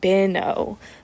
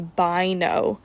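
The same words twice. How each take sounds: First: The syllable break comes after the middle consonant. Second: The syllable break comes right after the first vowel. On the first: The speaker calls it wrong. "Bino would be after the consonant" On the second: The speaker calls it right. "say this first syllable division pattern after the vowel first"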